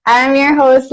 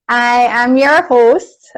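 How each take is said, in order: First: Said in the usual way. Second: Slow, smooth radio announcer delivery; radio host voice. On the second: Pretend. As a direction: put on a broadcast host voice. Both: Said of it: "I sound like a radio TV person".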